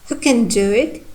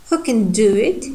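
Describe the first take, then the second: The two takes are said the same way.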